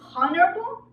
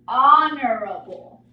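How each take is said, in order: First: The H sound is pronounced. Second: The H sound is silent. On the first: The speaker calls it wrong. "Is it honorable? No, right?" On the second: The speaker calls it right. "It is honorable. So we are not pronouncing the H"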